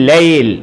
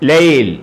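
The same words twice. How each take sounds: First: The word stops on a bare final consonant. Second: The same.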